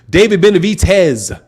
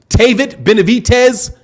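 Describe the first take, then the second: First: The first name begins with a D sound. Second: The first name begins with a T sound. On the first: The speaker calls it right. "I see a D, I pronounce it with a D" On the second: The speaker calls it wrong. "Since when did the D turn into a T?"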